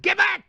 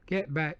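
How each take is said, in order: First: It is said forcefully, with real feeling. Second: It is said flatly, without feeling. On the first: The actor can act the part. The speaker calls it right. "But if he can act and he says" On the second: The actor cannot act the part. The speaker calls it wrong. "If he's talking in a wooden voice"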